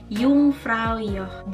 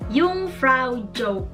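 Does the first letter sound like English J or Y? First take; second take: Y; English J. First: The first sound is like an English Y. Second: The first sound is like an English J. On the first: The speaker calls it right. "dibacanya itu seperti huruf Y" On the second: The speaker calls it wrong. "Jadi bukan"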